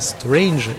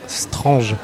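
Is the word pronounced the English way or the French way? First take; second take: English; French. First: The word is said with English pronunciation. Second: The word is said with French pronunciation. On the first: "ils ne disent pas Strange" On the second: "ils disent bien Strange ... Cette prononciation très française"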